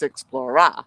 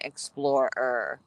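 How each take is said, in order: First: "Explorer" with a loud, open -RAH on the end. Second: "Explorer" slowly, with a clear r-coloured -er ending. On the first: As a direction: punch the last syllable of "Explorer" as RAH, no final r. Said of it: "my name isn't Explorer". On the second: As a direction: say "Explorer" carefully, sounding the final r. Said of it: "instead of saying Explorer". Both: Shown as a demonstration.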